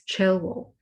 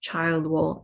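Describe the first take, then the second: First: The first part sounds like 'chill'. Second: The first part sounds like 'child'. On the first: The speaker calls it right. "it is Chilwell" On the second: The speaker calls it wrong. "it is not pronounced Childwall"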